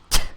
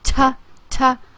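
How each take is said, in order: First: The t sound is only a puff of air. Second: The t sound is followed by a voiced vowel. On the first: The speaker calls it right. "you are not using your vocal cords, but that you're pushing air through your mouth" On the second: The speaker calls it wrong. "the mistake when teaching these is that you would say"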